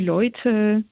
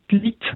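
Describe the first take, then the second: First: The vowel glides as a diphthong. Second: The vowel is a single i-sound. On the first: This is the standard German form. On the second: This is the Alsatian dialect form.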